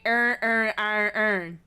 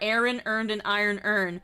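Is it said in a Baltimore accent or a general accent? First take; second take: Baltimore; general. First: It is said in a Baltimore accent. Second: It is said in a general American accent.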